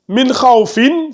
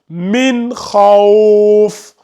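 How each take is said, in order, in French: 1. Le dernier mot se termine par le son « in ». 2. Le dernier mot se termine sur une consonne sans voyelle.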